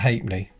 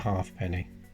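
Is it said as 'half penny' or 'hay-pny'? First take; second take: hay-pny; half penny. First: The word is run together as hay-pny. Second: Each part is spelled out: half, then penny. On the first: The speaker calls it right. "that would always have been called a halfpenny" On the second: The speaker calls it wrong. "No one would have called it a halfpenny"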